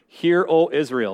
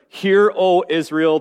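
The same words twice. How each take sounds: First: The phrase is said quickly. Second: The phrase is said slowly. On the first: The speaker calls it wrong. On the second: The speaker calls it right.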